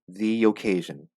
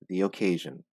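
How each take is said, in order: First: The words are joined smoothly with a 'y' sound. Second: The same.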